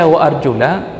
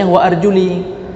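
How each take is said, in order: First: The word ends with an 'a' vowel. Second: The word ends with an 'i' vowel. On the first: The feet are washed like the face. "sama-sama baris di atas" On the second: The feet are wiped like the head. "Mereka bacanya wa arjuli"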